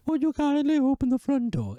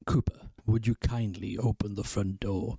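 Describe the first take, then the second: First: Very high, loud mock-female voice; bad woman's voice. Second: Low, slow, measured command; deep voice. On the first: Man failing at her voice, comically high woman impression. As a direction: badly fake a woman, squeaky high and loud. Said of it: "She does it in her voice. I can't do her voice". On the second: Acted. Narrator ordering Cooper to open the door, deep voice. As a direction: put on a deep, deliberate voice. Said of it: "It works better with a deep voice".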